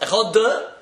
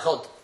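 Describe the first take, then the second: First: The final d is drawn out with an added vowel. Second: The final d ends cleanly with no added vowel. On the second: "It's not Echod"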